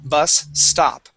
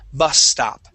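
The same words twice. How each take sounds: First: Two separate S sounds are pronounced. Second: The two S sounds merge into one. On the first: The speaker calls it wrong. "two S's would sound like this" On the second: The speaker calls it right. "We combine them"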